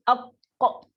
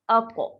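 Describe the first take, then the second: First: The consonant is held and stops abruptly. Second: The consonant bounces lightly and flows on.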